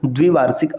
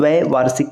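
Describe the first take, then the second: First: The first vowel is pronounced 'i'. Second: The first vowel is pronounced 'ai'. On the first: The speaker calls it wrong. "न कि द्विवार्षिक अशुद्ध" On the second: The speaker calls it right. "द्वैवार्षिक कहते हैं"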